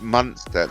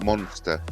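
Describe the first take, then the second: First: The first syllable sounds like 'mun'. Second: The first syllable sounds like 'mon'. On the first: The speaker calls it right. "It's Munster" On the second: The speaker calls it wrong. "not Monster"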